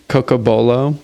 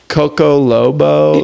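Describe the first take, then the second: First: The third syllable starts with a b sound. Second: The third syllable starts with an l sound. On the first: The speaker calls it right. "It's taken me like years to say it right" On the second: The speaker calls it wrong. "like it just always blends together"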